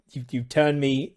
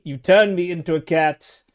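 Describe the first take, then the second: First: Said in the usual way. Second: Louder, higher mock outrage; indignant outcry. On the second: Real, not acted. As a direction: protest being turned into a cat. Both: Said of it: "you monster".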